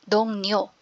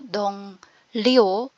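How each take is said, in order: First: The second syllable begins with an N sound. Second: The second syllable begins with an L sound. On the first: The speaker calls it right. "kundi Dong Nyo" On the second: The speaker calls it wrong. "hindi din po Dong Lyo"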